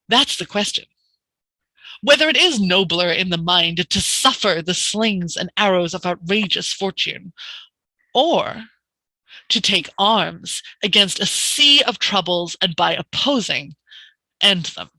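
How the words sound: It is said with breath pauses between ideas.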